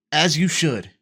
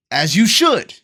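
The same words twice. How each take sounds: First: Said in the usual way. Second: SHOULD jumps up high and loud; emphatic approval. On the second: Real, not acted. Player backing the father, emphatic on "should". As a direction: punch "should" loudly, then let it drop. Emphatic first take, then repeated.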